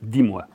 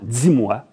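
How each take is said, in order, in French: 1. Le d est une occlusive simple. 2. Le d est affriqué, comme dz. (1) "au lieu de" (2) "Comme dans"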